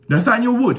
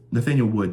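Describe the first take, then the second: First: "Nathaniel Wood" in a hammed-up British accent, pitched much higher and louder. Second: Said in the usual way. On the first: Hyping the fighter's name to viewers, hammed-up British accent. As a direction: announce "Nathaniel Wood" like a mock British ring announcer, high and loud. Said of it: "I keep doing the British accent". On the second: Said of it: "you cannot not say it by a British accent".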